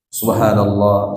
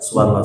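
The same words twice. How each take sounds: First: The word is said slowly and clearly. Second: The word is rushed and slurred. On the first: The words are meant and felt. The speaker calls it right. "Yang jelas cuma tiga kali" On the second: The words are not felt or meant. The speaker calls it wrong. "Tidak diresapi"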